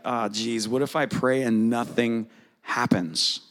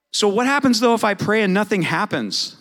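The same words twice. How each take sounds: First: Mock worried. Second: Raised, louder rhetorical question. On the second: Shown as a demonstration. Pastor challenges the congregation, high and loud. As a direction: pastor asks the room outright, higher and louder. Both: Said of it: "Does anybody ever worry about that?".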